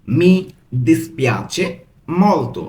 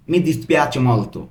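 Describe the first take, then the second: First: "Mi ... dispiace ... molto" with clear pauses; broken into pieces. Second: Said in the usual way. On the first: Shown as a demonstration. Teacher showing how to say very sorry, word by word. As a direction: leave a gap after each word of "Mi dispiace molto". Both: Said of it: "ভেঙে ভেঙে পড়ছি".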